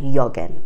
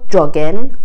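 First: The word begins with a 'y' sound as in yes. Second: The word begins with a 'j' sound as in jam. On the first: The speaker calls it wrong. "نمیگن یاگن" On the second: The speaker calls it right. "همینطور جاگن درسته"

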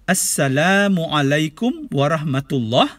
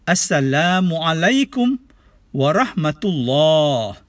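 First: The final vowel is short, held one beat. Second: The final vowel is long, held two beats. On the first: The speaker calls it wrong. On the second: The speaker calls it right. "Dua harakat pada penghujungnya"

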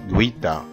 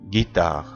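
First: A 'w' sound follows the 'g'. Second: No 'w' sound follows the 'g'. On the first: The speaker calls it wrong. "ما قلتش جويتا غلط" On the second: The speaker calls it right. "انما اقول جيتا"

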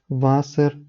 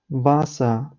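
First: The final R is clearly pronounced. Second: The final R sounds like a short A. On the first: The speaker calls it wrong. "це неправильно читається" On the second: The speaker calls it right. "Правильно воно буде звучати без читання чіткого R"

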